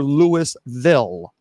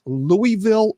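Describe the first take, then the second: First: Louisville drawn out as LOO-iss-vil; Louis-ville with sounded S. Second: Louisville drawn out as LOO-ee-vil; Louie-ville with silent S. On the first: Host tries the question again, Louisville as LOO-iss-vil. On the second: Host tries the question again, Louisville as LOO-ee-vil. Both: Shown as a demonstration. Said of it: "is it pronounced Louisville or".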